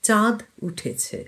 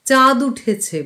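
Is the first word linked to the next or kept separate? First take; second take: separate; linked. First: The two words are kept separate. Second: The two words run together as one. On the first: The speaker calls it right. "সেপারেটলি উচ্চারণ করতে হয়" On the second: The speaker calls it wrong. "বলা যাবে না, চাঁদু হয়ে যাবে"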